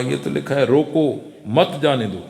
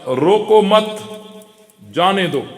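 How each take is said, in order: First: Low and measured, روکو set apart from مت جانے دو; pause after روکو. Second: روکو مت run together, then a pause before جانے دو; pause after مت. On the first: Gatekeeper misreading the student's note, low, pause after روکو. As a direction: break after روکو, then join مت to جانے دو. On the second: Teacher's written note for the gatekeeper, pause after مت. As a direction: break after مت, then let جانے دو fall. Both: Shown as a demonstration. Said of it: "وقف کے آگے پیچھے کرنے سے معنی بدل جاتا ہے".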